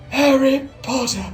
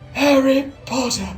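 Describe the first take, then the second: First: It is said in an imitation of Voldemort. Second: It is said in an imitation of Voldemort.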